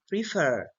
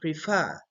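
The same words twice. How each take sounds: First: The stress is on the first syllable. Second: The stress is on the second syllable. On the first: The speaker calls it wrong. "We don't say prefer" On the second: The speaker calls it right. "No, we say prefer"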